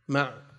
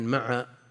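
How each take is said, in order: First: The ain has no vowel after it. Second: The ain is followed by a short a vowel. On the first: "ويقال أيضا بإسكانها" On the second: "وكلمة مع بفتح العين"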